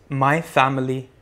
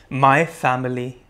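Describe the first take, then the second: Both takes have the same delivery.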